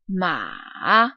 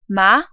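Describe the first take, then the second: First: The pitch falls low, then rises again. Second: The pitch rises from middle to high. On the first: "will go down but then go back up" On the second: "the second tone is a rising tone"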